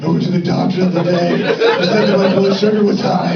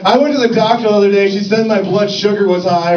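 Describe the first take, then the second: First: The voice is noticeably breathy. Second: The voice is plain, without extra breathiness.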